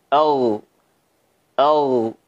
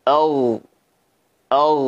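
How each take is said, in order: Both takes have the same delivery.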